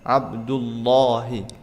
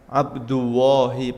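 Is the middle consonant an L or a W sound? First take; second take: L; W. First: The middle consonant is a clear l. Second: The middle consonant sounds like a w. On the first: The speaker calls it right. "harusnya pakai lam" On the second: The speaker calls it wrong. "pakai wawu kurang tepat"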